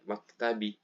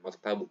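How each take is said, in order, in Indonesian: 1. Kata ini diakhiri dengan vokal 'ee'. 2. Kata ini diakhiri dengan vokal 'oo'. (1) "baca maktabi" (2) "nggak bisa dibaca maktabu"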